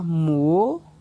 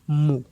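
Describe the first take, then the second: First: It is said on a rising tone. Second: It is said on a low tone. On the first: "Ton montant" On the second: "on aura un ton bas"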